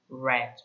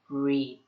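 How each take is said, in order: First: The vowel is short, like in 'bed'. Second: The vowel is long, like in 'need'. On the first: The action happened in the past. "pero si estamos en el pasado o hablando en pasado, utilizamos read" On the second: The action happens in the present. "Si nosotros estamos hablando en presente simple, utilizamos lo que es read"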